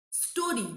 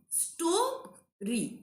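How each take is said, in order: First: Said in the usual way. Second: "Story" drawn out as sto... ry; a clear gap inside "Story"; syllable by syllable. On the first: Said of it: "we are pronouncing at a stretch". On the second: Shown as a demonstration. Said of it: "We can take a break in between".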